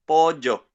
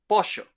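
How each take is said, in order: First: It is said in a younger Paraguayan accent. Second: It is said in a Uruguayan accent. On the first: "another Paraguayan guy, but this guy is fifteen and he doesn't say pollo, he says pollo" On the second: "this lady is from Uruguay, and she says pollo"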